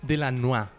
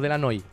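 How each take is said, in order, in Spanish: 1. El nombre termina en sonido 'a'. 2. El nombre termina en sonido 'i'. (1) "De la NOA, sí" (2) "No de la NOI"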